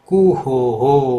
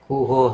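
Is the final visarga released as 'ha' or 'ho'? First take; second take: ho; ha. First: The final breath echoes the vowel as 'ho'. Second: The final breath is released as a plain 'ha'. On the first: The speaker calls it right. "ઓ છે, ઓ હો" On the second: The speaker calls it wrong. "નહીં કે બધે હ હ કરો"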